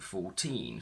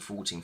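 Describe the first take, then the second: First: The stress is on the second syllable. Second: The stress is on the first syllable. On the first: Each number is said as a separate number. "we should technically say ... with the stress on teen" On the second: The numbers are counted fast, one after another. "we actually say ... So we move the stress to the front"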